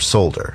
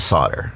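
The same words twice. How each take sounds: First: It is said with a non-American pronunciation. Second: It is said with an American pronunciation.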